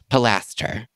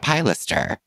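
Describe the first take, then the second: First: The word is said the standard, accepted way. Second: The word is said his long-used, nonstandard way. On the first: The speaker calls it right. "evidently it is pronounced pilaster" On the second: The speaker calls it wrong. "I have forever called a piloster a piloster"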